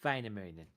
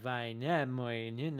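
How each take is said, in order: First: The stress falls on the first syllable. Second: The stress falls on a later syllable. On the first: The speaker calls it right. "the accenting is always on the first syllable" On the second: The speaker calls it wrong. "So it would not be like Väinämöinen or whatever"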